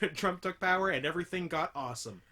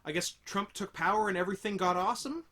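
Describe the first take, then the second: First: It ends with a fall, like a statement. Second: It ends with a rise, like a question.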